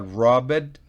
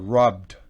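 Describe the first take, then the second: First: The ending is said as an extra syllable. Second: The ending is said as a plain d sound. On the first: The speaker calls it wrong. "no se pronuncia robbed" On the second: The speaker calls it right. "sino robbed"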